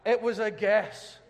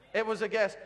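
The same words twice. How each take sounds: First: Slow emphatic aside. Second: Laughing. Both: Shown as a demonstration.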